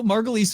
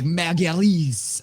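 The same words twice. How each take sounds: First: Said in the usual way. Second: MARGULIES as mah-gya-LEEES, drawn out slowly and higher; mock foreign MARGULIES, stretched final syllable; exaggerated foreign pronunciation. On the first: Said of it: "would be right". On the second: Co-host mocking show-off speakers, stretched mah-gya-LEEES for MARGULIES. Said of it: "but if you were like".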